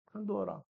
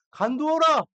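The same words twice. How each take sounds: First: 간두어라 dropped much softer, settling it quietly; soft repeat. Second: Firm command. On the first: David quietly repeating his order to Abishai, soft and settled. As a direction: let 간두어라 fall away gently, almost to yourself. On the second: David ordering Abishai to stand down, firm raised command. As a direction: halt him sharply with 간두어라, commanding. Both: Retold or imitated.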